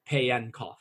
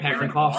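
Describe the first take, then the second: First: The name is said without an R sound. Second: The name is said with an R sound. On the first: The speaker calls it right. "It's Yasin Payankov, I found out" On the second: The speaker calls it wrong. "I think you were pronouncing it like Parenkov"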